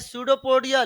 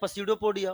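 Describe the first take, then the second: First: The word begins without any p sound. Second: The word begins with an audible p sound. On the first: This is how the word is actually said. "बोलते हैं सूडोपोडिया" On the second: This is how the word is written. "लिखते हैं पसीडोपोडिया"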